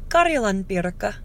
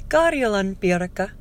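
No difference in how they are said.

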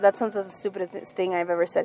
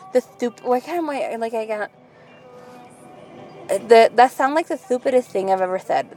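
First: It is spoken in a normal voice without a lisp. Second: It is spoken in a put-on lisping voice.

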